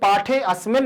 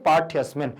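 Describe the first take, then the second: First: The 'a' of 'asmin' is pronounced clearly and separately. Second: The 'a' is suppressed, with the words run together. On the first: The speaker calls it wrong. "इसको पाठे अस्मिन नहीं पढ़ सकते" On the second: The speaker calls it right. "सामने वाले को समझ में नहीं आना चाहिए कि आप आ बोल रहे हैं"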